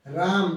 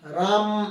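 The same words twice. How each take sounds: First: Said in the usual way. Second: राम with the final म-अ drawn out long; stretched final vowel. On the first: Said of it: "मान लीजिए हमने यहाँ लिख दिया राम". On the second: Shown as a demonstration. Teacher showing how राम becomes pluta, final vowel stretched. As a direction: pull the म out into a long held vowel. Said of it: "म को खींच के बोलेंगे".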